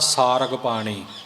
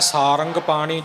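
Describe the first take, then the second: First: The second syllable is rag, without any nasal. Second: The second syllable is rang, nasal, no i. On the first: "ਟਿੱਪੀ ਤੋਂ ਬਿਨਾਂ" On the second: "ਇੱਕ ਹੈ ਸਾਰੰਗ ਪਾਣੀ"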